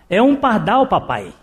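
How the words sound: It is said with a slightly irritated voice.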